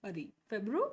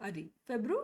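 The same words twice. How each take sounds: Both takes have the same delivery.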